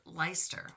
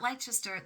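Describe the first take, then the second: First: The name is said with two syllables. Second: The name is said with three syllables. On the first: The speaker calls it right. "That is Leicester" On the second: The speaker calls it wrong. "Now that is not Leicester"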